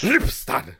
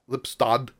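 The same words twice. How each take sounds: First: The word is said in an angry tone. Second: The word is said in a neutral tone.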